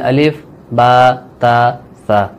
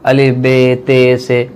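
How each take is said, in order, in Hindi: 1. अक्षरों के नाम 'a' स्वर पर खत्म होते हैं। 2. अक्षरों के नाम 'e' स्वर पर खत्म होते हैं। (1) "अरबी में ऐसे नहीं पढ़ते, अरबी में" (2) "इसको बाद लोग बे पढ़ते हैं"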